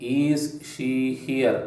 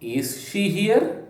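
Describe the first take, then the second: First: The pitch stays level without rising at the end. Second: The pitch rises steadily toward the end. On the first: The speaker calls it wrong. "ಈಸ್ ಶಿ here ಅಲ್ಲ" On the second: The speaker calls it right. "So ಈ ರೀತಿ ನಮ್ಮ ಧ್ವನಿಯನ್ನು ನಾವು ಏರಿಸ್ತಾ ಹೋಗ್ತೇವಲ್ಲ"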